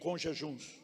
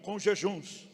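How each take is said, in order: First: It is said with ordinary energy. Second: It is said with more energy and enthusiasm.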